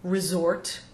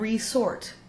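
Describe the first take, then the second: First: The S is voiced, sounding like a Z. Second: The S is unvoiced, sounding like an S. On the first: It means a holiday place or a fallback option. "We tend to voice the S after RE when it's not a prefix" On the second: It means to sort again. "we maintain the original pronunciation of the root word"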